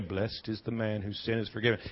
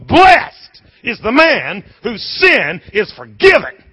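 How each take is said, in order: First: The sentence is read in a flat, plain way. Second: The sentence is read with lively, joyful energy. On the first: The words are read without feeling their meaning. "He wasn't reading it this way" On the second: The speaker feels the joy of being forgiven. "He was"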